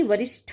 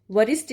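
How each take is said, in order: First: वरिष्ठ ending in a puffed ṭh; correct aspirated ending. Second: वरिष्ठ ending in a quick dry ṭ; wrong unaspirated ending. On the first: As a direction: say वरिष्ठ as varishṭho, with breath. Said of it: "होता है". (वरिष्ठ के अंत में ठ की ध्वनि) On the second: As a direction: say वरिष्ठ as varisṭ, no breath. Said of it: "नहीं". (वरिष्ठ के अंत में ट की ध्वनि) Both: Shown as a demonstration.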